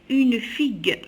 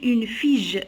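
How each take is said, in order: First: The word ends with a hard g sound. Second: The word ends with a soft zh sound. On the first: The speaker calls it right. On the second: The speaker calls it wrong.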